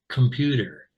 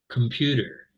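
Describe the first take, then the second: First: The first vowel is a reduced schwa sound. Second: The same.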